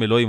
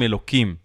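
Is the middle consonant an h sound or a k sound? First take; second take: h sound; k sound. First: The middle consonant is an h sound. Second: The middle consonant is a k sound. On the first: The divine name is spoken outright. The speaker calls it wrong. "לא אומרים אלוהים" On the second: The name is altered out of reverence. The speaker calls it right. "אומרים אלוקים"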